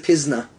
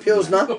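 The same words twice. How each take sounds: First: The word is said without an L sound. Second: The word is said with an L sound. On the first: The speaker calls it right. "they dropped the L" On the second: The speaker calls it wrong. "Not a Pilsner"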